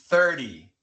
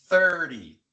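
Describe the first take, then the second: No difference in how they are said.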